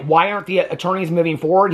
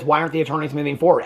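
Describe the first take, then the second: First: Said in the usual way. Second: Fast, flat parroting of her words; mocking echo. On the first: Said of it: "she's like". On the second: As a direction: toss her question straight back, quick and dismissive. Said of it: "he just echoes back to her".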